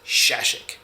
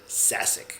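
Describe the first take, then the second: First: The surname is said with Czech sounds. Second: The surname is said with English sounds. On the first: This is the name's original form. "It's a Czech name" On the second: This is how the owner says his own name. "I pronounce it Sasic"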